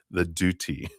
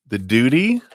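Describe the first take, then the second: First: Said in the usual way. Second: The duty? louder and rising, mock bewildered; puzzled echo. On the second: Real, not acted. Reader echoes the viewer's question, louder and incredulous. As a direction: throw The duty? back up high as if it's absurd.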